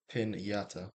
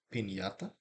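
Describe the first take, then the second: First: It is said with an English accent. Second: It is said with a Mexican Spanish accent. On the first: "the other one's gonna be the English version" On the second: "the first one I say is gonna be Mexican version"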